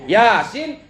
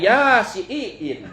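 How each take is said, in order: First: The i vowel is said short. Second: The i vowel is drawn out long.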